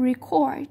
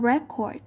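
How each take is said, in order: First: The stress is on the second syllable. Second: The stress is on the first syllable. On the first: It is a verb meaning to make a recording. "Verb are usually stressed on the second syllables" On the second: It is a noun meaning a recording. "Nouns are usually stressed on the first syllable"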